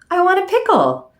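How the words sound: It is said with a changed, expressive tone. "now I can shift my tone and thereby shift the meaning"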